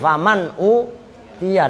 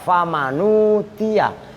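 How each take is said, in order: First: The n closes the syllable, u starts next word. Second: The n carries a u vowel before tia. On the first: This is the original form. "Asalnya kan begini" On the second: The vowel is moved to the preceding letter. "dalam satu qiraah ada yang baca"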